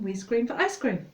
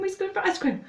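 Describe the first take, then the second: First: It is said faster again, quite quickly. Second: It is said very fast, nearly tripping up. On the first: "And faster" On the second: "And really fast"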